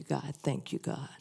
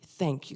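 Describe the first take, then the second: First: Softer and softer, ending in a hushed whisper; fading to a whisper. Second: Said in the usual way. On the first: Shown as a demonstration. Speaker thanking God, trailing off into a whisper. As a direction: let the thanks sink into a whispered prayer. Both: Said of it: "the really important one".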